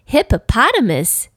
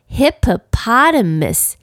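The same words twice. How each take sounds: First: The word is said at a very fast pace. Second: The word is said at a fast pace. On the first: "再说快一点" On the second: "念快一点"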